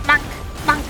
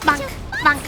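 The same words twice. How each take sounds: The two takes are said the same way.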